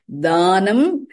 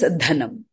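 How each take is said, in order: First: "Dhanam" said slowly as daa-nam; long vowel, plain d. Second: "dhanam" said briefly as dha-nam; short vowel, aspirated dh. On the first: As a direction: stretch the first a of "Dhanam", no puff on d. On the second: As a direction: puff on d, quick a in "dhanam". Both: Shown as a demonstration. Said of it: "whereas dhanam".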